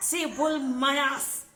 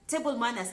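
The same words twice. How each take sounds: First: Drawn-out, louder, higher "Table manners"; slow emphatic title. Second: Said in the usual way. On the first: Acted. Vlogger announcing her topic, slow and emphatic. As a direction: announce "Table manners" slowly and loudly like a headline.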